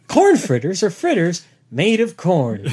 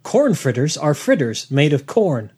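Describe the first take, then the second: First: Slow, mock-grand reading of the line; mock solemn rereading. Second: Deadpan, slow reading of a dull fact. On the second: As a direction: read it out slowly and flatly. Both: Shown as a demonstration. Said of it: "worst Wikipedia page ever".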